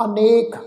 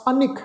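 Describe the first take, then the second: First: ਅਨੇਕ with a long "e" after the ਨ; long e vowel. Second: ਅਨਿਖ as "anik", short "i" after ਨ; short i vowel. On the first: Teacher gives the original word, long e in ਅਨੇਕ. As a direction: stretch the second vowel of ਅਨੇਕ to "ay". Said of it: "ਨੰਨੇ ਦੇ ਉੱਤੇ ਇੱਕ ਲਾ ਨਾਲ". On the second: Teacher gives the Guru's spelling, short i in ਅਨਿਖ. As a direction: keep the second vowel of ਅਨਿਖ to a brief "i". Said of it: "ਨੰਨੇ ਨੂੰ ਸਿਹਾਰੀ ਦੇ ਨਾਲ". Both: Shown as a demonstration.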